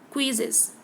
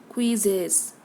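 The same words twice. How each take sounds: First: The second vowel is quick and faint. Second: The second vowel is full and emphasized. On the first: The speaker calls it right. "It is quick" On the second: The speaker calls it wrong.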